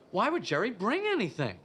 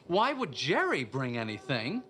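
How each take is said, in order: First: The stress is on bring. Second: The stress is on Jerry.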